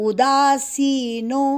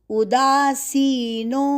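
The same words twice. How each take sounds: The two takes are said the same way.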